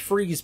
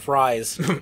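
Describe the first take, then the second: First: The vowel is a long 'ee' sound. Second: The vowel is an 'eye' sound. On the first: "It's it's pronounced freeze" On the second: "but it's pronounced Mister Fries. I want fries"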